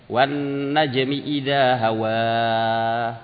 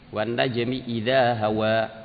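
First: The final vowel is drawn out long. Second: The final vowel is held briefly. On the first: The speaker calls it wrong. "enggak boleh dibaca ... panjang" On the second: The speaker calls it right. "Dua rakaat"

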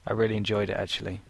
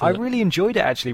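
First: It is said flat, with no emotion. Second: It is said lively, with varied intonation. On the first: "having no emotion in your voice at all" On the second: "there are intonations at the end of your sentences, which are fantastic"

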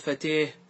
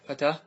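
First: The long vowel leans toward an e sound. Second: The long vowel is an open a sound.

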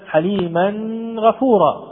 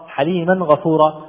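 First: The n sound is nasalized and held longer. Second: The n sound is clear, with no nasal hold. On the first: The speaker calls it wrong. "فلا يصح أبدا أن نقول مثلا" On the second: The speaker calls it right. "نلاحظ عدم وجود الغنة أو مد الغنة أكثر من اللازم"

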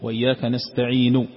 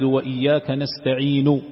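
First: The last word ends with a faint, partial vowel. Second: The last word ends with a full u vowel. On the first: "استعين الأخيرة تعطيها ثلث الصوت فقط" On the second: "هذا إذا نطقت بها وهي مضمومة"

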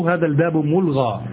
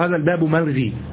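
First: The last word ends in an a vowel. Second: The last word ends in an i vowel. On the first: The speaker calls it right. "والصواب هذا الباب ملغى" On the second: The speaker calls it wrong. "نقول هذا الباب ملغي"

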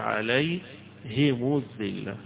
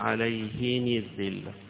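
First: The h-vowel is i, the linking vowel u. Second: Both the h-vowel and linking vowel are i. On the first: "بكسر وضم في الآخر" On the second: "بالكسر مع"

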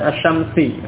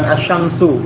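First: The word ends with an i vowel. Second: The word ends with a u vowel. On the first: "ataupun kasrah huruf akhirnya" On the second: "bukan dengan dhammah"

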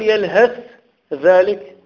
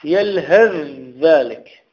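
First: The th and dh are pronounced separately. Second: The th merges straight into the dh. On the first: The speaker calls it wrong. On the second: The speaker calls it right.

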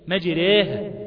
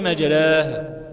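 First: The long vowel leans strongly toward 'ee'. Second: The long vowel is an open, plain 'a'. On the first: The speaker calls it right. "قريبة جدا للياء" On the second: The speaker calls it wrong. "اوعى تقول لي مجراها"

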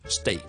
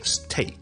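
First: The t is soft with no puff of air. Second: The t has a strong puff of air. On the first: The speaker calls it right. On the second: The speaker calls it wrong.

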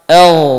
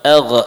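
First: The final ghain flows smoothly without a bounce. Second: The final ghain ends with an echoing bounce. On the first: The speaker calls it right. "Ghain termasuk huruf rakhawah. Mengalir suaranya" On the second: The speaker calls it wrong.

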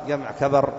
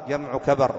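No difference in how they are said.

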